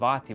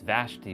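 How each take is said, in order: First: The name is said without an sh sound. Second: The name is said with an sh sound. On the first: The speaker calls it wrong. "I was calling it her name Vati, but that's not how you say her name" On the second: The speaker calls it right. "It's Vashti"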